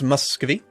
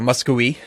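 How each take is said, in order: First: The word is said with a V sound. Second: The word is said with a W sound. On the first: "Muscovy is what it looks like to me" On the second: "as some people seem to pronounce it. I don't know why a V becomes a W"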